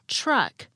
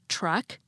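First: It begins with a ch-like sound. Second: It begins with a plain t sound. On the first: "I'm saying truck" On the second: "Instead of saying truck"

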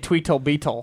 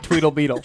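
First: The middle consonant is a crisp T sound. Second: The middle consonant is a soft D sound. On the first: "I'm not going to say" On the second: "because then it's a D"

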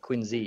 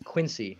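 First: The name is said the way locals say it. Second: The name is said the way a computer says it. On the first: The speaker calls it right. "instead of Quincy" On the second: The speaker calls it wrong. "a computer says Quincy"

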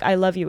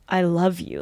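First: It is said flatly, without real feeling. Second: It is said warmly, with heartfelt feeling.

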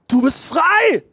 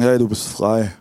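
First: It is said in a cheerful, smiling tone. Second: It is said in a gloomy, pessimistic tone.

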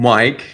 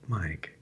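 First: The name is said with an unusual, exaggerated vowel. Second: The name is said with an ordinary vowel. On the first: "That was me trying to pronounce the Y" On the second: "Just say it like it's meant to be said"

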